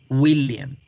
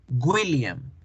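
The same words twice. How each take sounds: First: The W is said like a vowel 'u'. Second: The W is said like a hard 'gw'. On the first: The speaker calls it right. "y no es gu, es una U" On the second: The speaker calls it wrong. "tendemos a hacer la W como el sonido de la, de la sílaba gu"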